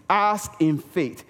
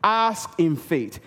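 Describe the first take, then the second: No difference in how they are said.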